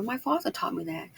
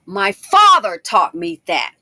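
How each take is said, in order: First: Said in the usual way. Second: "father" punched out loud and drawn out; loud, deliberate declaration leaning on "father"; emphatic stress. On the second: Real, not acted. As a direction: hit "father" hard, slow and loud. Repeats it loudly for emphasis.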